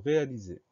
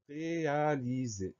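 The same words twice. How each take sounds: First: Said in the usual way. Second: "réaliser" drawn out syllable by syllable, higher pitch; slow dictation. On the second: Shown as a demonstration. Teacher announces the next spelling word, slow dictation. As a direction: stretch "réaliser" slowly for spellers to follow.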